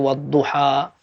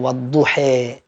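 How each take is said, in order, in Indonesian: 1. Vokal akhirnya adalah bunyi 'a' terbuka yang biasa. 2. Vokal akhirnya condong ke bunyi 'e'. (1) "seperti biasa dibaca normal" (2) "yang beda-beda seperti itu namanya imalah"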